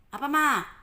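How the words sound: It is said in a harsh, irritated tone.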